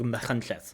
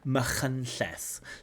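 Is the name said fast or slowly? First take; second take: fast; slowly. First: The name is said at normal, quick speed. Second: The name is said slowly and carefully.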